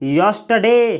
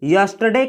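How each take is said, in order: First: The r sound is silent in the word. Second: The same.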